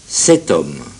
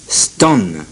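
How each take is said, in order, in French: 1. Le premier mot est prononcé comme une syllabe pleine. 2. Le premier mot est réduit à un son st.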